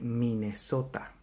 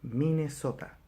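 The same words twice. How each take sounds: First: Every vowel is full and clear. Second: The same.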